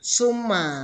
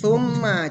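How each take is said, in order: First: It begins with a plain 's' sound. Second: It begins with a 'th' sound as in think. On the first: The speaker calls it wrong. "jangan summa" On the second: The speaker calls it right.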